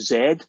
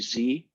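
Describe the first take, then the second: First: The letter is pronounced the Scottish way. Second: The letter is pronounced the American way. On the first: This is how the speaker says it. The speaker calls it right. "I say Z" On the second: This is how most listeners say it. The speaker calls it wrong. "instead of Z"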